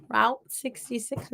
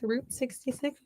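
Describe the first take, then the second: First: "Route" said like rout; route rhyming with out. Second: "Route" with an oo vowel; route like root. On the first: [name] tries others' road name, "Route" rhyming with out. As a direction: say "Route" with an ow vowel. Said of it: "Other people say route". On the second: [name] tries her own road name, "Route" like root. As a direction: say "Route" to rhyme with boot. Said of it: "I say route". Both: Shown as a demonstration.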